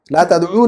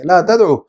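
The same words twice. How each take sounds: First: تدعو said with the long final oo, tad'oo; wrong form, waw kept. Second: تدعو clipped, tad'u with no long oo; correct form, waw dropped. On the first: Teacher showing the wrong form, تدعو with final oo. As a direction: keep the ending oo sound on تدعو. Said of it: "لا تدعو نہیں بولیں گے". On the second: Teacher modelling the correct form, تدعو without oo. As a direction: drop the final waw of تدعو. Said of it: "واو گرا دیں گے". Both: Shown as a demonstration.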